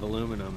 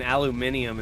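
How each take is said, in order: First: It is said the American way, with four syllables. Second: It is said the overseas way, with five syllables. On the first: This is how the speaker used to say it at home. "instead of aluminum" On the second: The speaker picked this up from time spent abroad. "I'm saying aluminium instead of"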